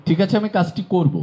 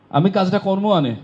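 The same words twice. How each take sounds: First: Said in the usual way. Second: Barishal Bengali dialect, pitched higher, with কর্ম আনে for করব. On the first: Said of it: "এটি প্রমিত". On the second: Shown as a demonstration. Teacher showing the class the Barishal regional variant, Barishal dialect. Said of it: "এটি বরিশালে যদি আঞ্চলিক হয়".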